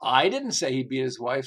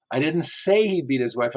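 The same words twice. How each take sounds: First: "didn't" punched, rising; stress on DIDN'T. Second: "say" made prominent; stress on SAY. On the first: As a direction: hit "didn't" hard. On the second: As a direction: lean on "say". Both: Shown as a demonstration. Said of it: "how many different ways this can be interpreted".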